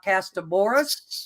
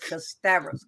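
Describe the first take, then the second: First: The name has four syllables with a b sound. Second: The name has three syllables with a v sound. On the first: The speaker calls it wrong. "It's not Castaboras" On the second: The speaker calls it right. "It's Castavras"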